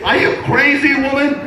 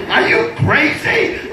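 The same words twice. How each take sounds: First: High, punchy repeat; Are you crazy, woman shouted high and sharp; mock yell. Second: Slowed, breathy with laughter; Are you crazy drawn out slowly through a laugh; laughing disbelief. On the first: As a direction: hurl it at her, pitched way up. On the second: Retold or imitated. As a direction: let the laugh break through the question. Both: Husband yelling at his wife.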